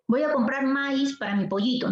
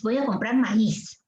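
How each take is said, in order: First: "maíz" said MÁIZ in one syllable, stressed on the a; mock mispronunciation of "maíz" with a weak i; wrong stress demo. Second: "maíz" said ma-ÍZ in two syllables; correct hiatus. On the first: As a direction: slide "maíz" into a diphthong, MAIZ. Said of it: "Yo no digo maíz". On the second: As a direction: put the stress on the í of "maíz". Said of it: "No, yo digo maíz". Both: Shown as a demonstration.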